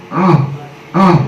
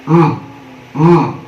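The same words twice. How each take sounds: Both takes have the same delivery.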